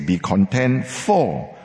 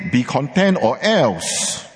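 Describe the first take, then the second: First: Slow, with "for" drawn out and landing on a fall; stress on FOR. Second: Slow, stressing OR ELSE as a threat. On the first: Preacher voicing God's assuring promise to his congregation, slow stress on "for". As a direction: lean on the word "for", slow and assuring. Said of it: "He says". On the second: Preacher voicing the rejected threat to his congregation, slow warning stress. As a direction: lean on "or else" like a warning, slowly. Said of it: "God does not say". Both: Shown as a demonstration.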